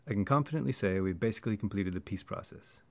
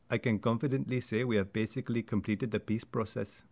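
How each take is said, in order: First: American accent with small words nearly dropped. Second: Indian accent with even, syllable-timed emphasis. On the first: "if I was to say this sentence in an American accent" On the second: "in an Indian accent, which might sound like"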